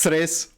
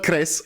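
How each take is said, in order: First: The word begins with a ts sound. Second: The word begins with a hard k sound. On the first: The speaker calls it right. "it's Tres" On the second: The speaker calls it wrong. "it's not Cres"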